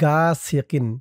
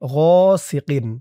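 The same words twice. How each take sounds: First: It starts with a plain hard g sound. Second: It starts with a throaty, rasping gh sound. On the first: The speaker calls it wrong. "অনেকে বলে শাররি গাসিকিন, গা বললে কিন্তু গয়নের উচ্চারণটা শুদ্ধ হয় না" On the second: The speaker calls it right. "বলতে হবে গাসিকিন"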